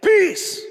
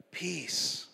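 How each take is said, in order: First: Sharp, high yelled command; shouted peace. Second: Quiet peace. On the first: Preacher guessing how Jesus rebuked the storm, shouting. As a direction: yell it out, short and sudden. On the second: Preacher guessing how Jesus hushed the storm, quiet. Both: Retold or imitated. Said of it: "I don't know how he said it".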